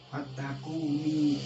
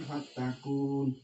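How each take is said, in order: First: The word ends with a short i after n. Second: The word stops on the n without vowel. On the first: The speaker calls it right. "harusnya dibaca itu" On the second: The speaker calls it wrong. "jangan fatakun. Ini salah"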